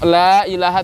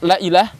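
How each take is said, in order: First: The vowel of la is held long. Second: The vowel of la is cut short. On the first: There is no god except God. The speaker calls it right. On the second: There truly is a god besides God. The speaker calls it wrong.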